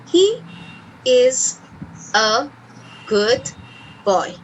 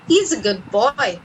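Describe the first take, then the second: First: He and is are said as separate words. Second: He and is are joined into one syllable.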